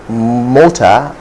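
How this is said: It is said in a Ghanaian English accent. The speaker calls it wrong. "In Ghanaian English, you're likely to hear mota"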